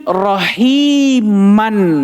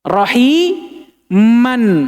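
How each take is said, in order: First: The word ends with an n sound. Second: The word ends with an n sound.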